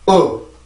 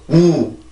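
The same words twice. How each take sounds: First: The vowel is lax with open lips. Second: The vowel is tense with tightly rounded lips. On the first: "이렇게 발음을 해주면 되는데 한번 들어봅시다" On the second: "우리나라는 입술을 모아놓고 우"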